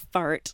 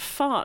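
First: The R sound is clearly pronounced after the vowel. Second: The R sound is dropped after the vowel. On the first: The speaker calls it wrong. "not a fart" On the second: The speaker calls it right. "this sounds so much better"

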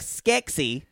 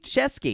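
First: The name begins with an 'sk' sound. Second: The name begins with a 'sh' sound. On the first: The speaker calls it wrong. "Not like Skeksy" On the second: The speaker calls it right.

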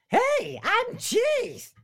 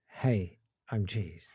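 First: It is said in a Roger Rabbit voice. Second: It is said in his normal voice.

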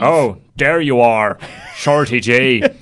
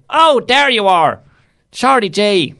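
First: The voice is pitched much lower and deeper. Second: The voice is at a higher, normal pitch. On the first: The speaker calls it right. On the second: The speaker calls it wrong.

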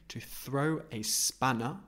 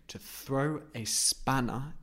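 The two takes are said the same way.

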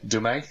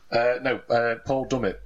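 First: The name is said with a French pronunciation. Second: The name is said with an English pronunciation. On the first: The speaker calls it wrong. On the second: The speaker calls it right.

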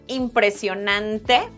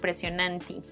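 First: It is said with a standard Spanish pronunciation. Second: It is said with a Brazilian-tinged pronunciation. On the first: "the real world is impresionante" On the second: "we're pronouncing it differently"

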